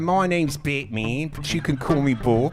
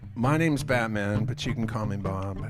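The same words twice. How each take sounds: First: It is spoken in a New Zealand accent. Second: It is spoken in a British accent. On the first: "So I'm gonna do it in a New Zealand accent" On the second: "regular British accent"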